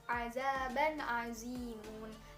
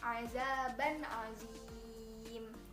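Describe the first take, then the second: First: The last word keeps its full vowel ending. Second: The last word drops its ending, vowel lengthened. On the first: The reading continues without stopping. "lafalnya itu azaban azimun" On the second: The reader stops at this word. "ketika diwakofkan maka bacaannya adalah azaban azim"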